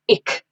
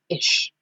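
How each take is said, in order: First: The word ends in a harder, non-sh sound. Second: The word ends in a soft sh sound. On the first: The speaker calls it wrong. "it's not ich" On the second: The speaker calls it right. "it's ish"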